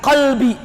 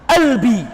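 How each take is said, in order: First: The word begins with a deep q sound. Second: The word begins with a glottal stop. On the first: "bukan qalbi, bukan qaf" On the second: "tapi pakai apa? Hamzah"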